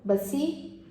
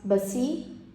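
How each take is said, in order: The two takes are said the same way.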